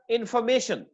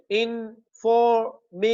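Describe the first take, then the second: First: Said in the usual way. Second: "information" slowly split into इन, फॉर, मे, शन; syllable by syllable. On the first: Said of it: "पांच syllable है". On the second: Shown as a demonstration. Teacher counting syllables of "information" for students, slowly separated. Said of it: "four syllable है हमारे पास".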